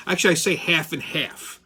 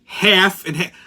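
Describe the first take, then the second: First: Said in the usual way. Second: "Half and half" with a firm falling tune; firm order. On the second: Retold or imitated. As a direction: state "Half and half" clearly to the clerk.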